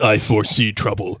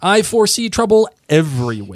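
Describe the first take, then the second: First: It is said in a menacing voice. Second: It is said in a plain voice.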